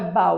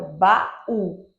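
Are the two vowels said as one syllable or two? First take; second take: one syllable; two syllables. First: The a and u glide together in one syllable. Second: A small break splits the a and u. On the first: The speaker calls it wrong. "para ser um único som teria que ser baú. Não é baú" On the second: The speaker calls it right. "tem uma pausa entre o A e o U"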